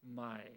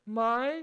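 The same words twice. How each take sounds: First: It is said with the tone meaning 'new'. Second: It is said with the tone marking a question. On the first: It means new. "새로운 이런 뜻이 되거든요" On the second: It turns the sentence into a question. "입니까?"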